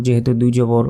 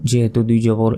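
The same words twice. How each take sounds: The two takes are said the same way.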